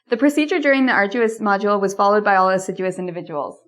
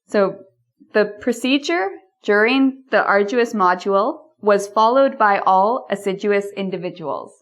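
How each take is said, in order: First: The sentence is spoken at a faster pace. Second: The sentence is spoken at a slower pace.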